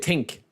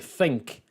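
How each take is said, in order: First: The word starts with a hard 't' sound. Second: The word starts with a soft 'th' sound. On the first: "We say think, like tank, except with an I" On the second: "I don't say think. Nobody in Ireland says think"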